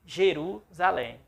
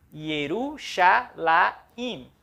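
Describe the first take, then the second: First: Said in the usual way. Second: Yerushalayim very slow, syllable by syllable; Hebrew pronunciation. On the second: Shown as a demonstration. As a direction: Hebrew Yerushalayim against Portuguese Jerusalém. (Yerushalayim lento em hebraico) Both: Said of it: "a palavra".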